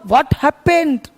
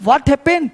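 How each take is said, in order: First: "What happened?" drawn out very slowly, falling at the end; teacher spelling out "What happened?" at a crawl; slow demo. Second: Said in the usual way. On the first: Shown as a demonstration. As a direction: say "What happened?" slowly so students can copy it. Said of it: "तो क्या हुआ?". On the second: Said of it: "तो हम लोग क्या बोलते हैं?".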